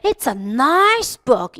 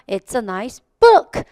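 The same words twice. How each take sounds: First: The stress falls on the word nice. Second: The stress falls on the word book. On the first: "진짜 좋아할 때는" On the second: "명사가 더 힘이 있었다는 거예요"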